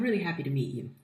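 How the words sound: It is said in a steady, confident voice. The speaker comes across as competent. "You want to project confidence?"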